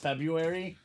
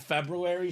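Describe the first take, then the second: First: One sound in the middle is dropped. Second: Every letter in the word is sounded out. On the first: This is how most people say it. "everyone says February" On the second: This is the technically correct form. "it's technically February"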